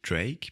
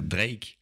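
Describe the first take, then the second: First: The name is said with an English accent. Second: The name is said with a French accent. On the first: "je dis les mots en anglais avec un accent anglais" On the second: "on va dire les mots anglais avec un accent français"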